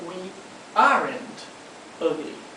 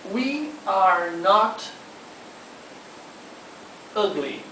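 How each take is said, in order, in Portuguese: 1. 'Are' e 'not' se unem em 'aren't'. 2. 'Are' e 'not' são ditos como palavras separadas. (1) "A contração de are mais o not fica aren't" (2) "a frase we are not ugly"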